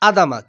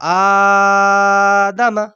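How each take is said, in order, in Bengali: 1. প্রথম স্বরটি হ্রস্ব, টানা হয় না। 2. প্রথম স্বরটি দ্বিগুণ টেনে দীর্ঘ করা হয়। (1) "কিন্তু আদামা হবে না" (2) "এখানে শব্দটা হবে আলিফের উপরে খাড়া যাবার"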